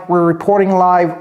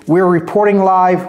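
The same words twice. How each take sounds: The two takes are said the same way.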